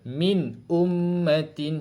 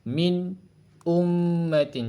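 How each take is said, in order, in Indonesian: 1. Dibaca dalam satu napas tanpa berhenti. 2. Ada berhenti sebentar setelah "min". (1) "sambung dengan satu nafas je" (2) "Kita matikan tapi kita berhenti sekejap"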